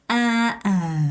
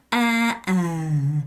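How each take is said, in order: First: The pitch goes down on the vowel. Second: The same.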